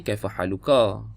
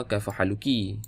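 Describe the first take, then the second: First: "Kaifa haluka" said with a clear final -ka; Arabic greeting to a man, ending "haluka"; careful Arabic. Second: "Kaifa haluki" said with a clear final -ki; Arabic greeting to a woman, ending "haluki"; careful Arabic. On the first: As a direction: end on "haluka", the masculine ending. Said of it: "tanya lelaki". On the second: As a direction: end on "haluki", the feminine ending. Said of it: "Kalau tanya perempuan". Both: Shown as a demonstration.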